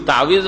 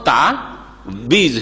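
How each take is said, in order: First: The middle consonant is a W sound. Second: The middle consonant is a B sound. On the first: The speaker calls it right. "তাউইজ মানে আশ্রয়" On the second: The speaker calls it wrong. "এক তো ওয়াওকে ওয়েকে বে করলো, আর আইনের টানকে অফ করে দিল।"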